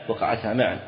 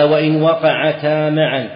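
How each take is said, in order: First: Said in the usual way. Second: Slow, emphatic recitation of the matn, louder and higher; reading the text aloud. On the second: Shown as a demonstration. Sheikh reading the legal text to his students, slow and emphatic. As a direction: read each word out deliberately to the class. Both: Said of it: "قال".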